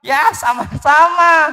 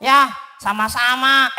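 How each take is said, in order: First: Mouse voice. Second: Doraemon voice. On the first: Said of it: "Eh, bukan". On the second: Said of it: "itu suara Doraemon". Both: Acted.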